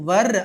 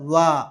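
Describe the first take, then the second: First: The word ends with an audible R sound. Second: The word ends without an R sound. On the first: The speaker calls it wrong. "వర్ అనక్కర్లే" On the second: The speaker calls it right. "ఆర్ పలకనక్కర్లేదు"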